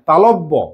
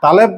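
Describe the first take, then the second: First: No extra vowel follows the 'l' sound. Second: An extra 'e' vowel follows the 'l' sound. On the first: The speaker calls it right. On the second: The speaker calls it wrong. "তালেব্য নয়"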